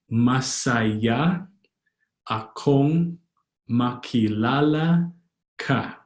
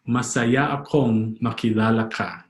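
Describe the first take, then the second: First: Long syllables and gaps between words; slow, word by word. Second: Said in the usual way. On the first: Shown as a demonstration. Teacher teaching "happy to meet you", slowly word by word. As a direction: stretch each word of "Masaya akong makilala ka". Slow model, then joined repeat.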